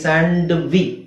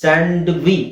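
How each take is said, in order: No difference in how they are said.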